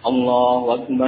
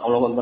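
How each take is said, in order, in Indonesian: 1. Diucapkan pelan dan jelas. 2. Diucapkan cepat dan tergesa-gesa. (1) "diucapkan dengan pelan, jelas, dengan panjang pendek yang tepat" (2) "Bukan cepat"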